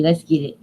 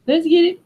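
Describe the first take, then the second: First: Said in the usual way. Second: Excited rallying cry; hyped. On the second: Shown as a demonstration. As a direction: pump everyone up with Let's get it. Hyping up the video start.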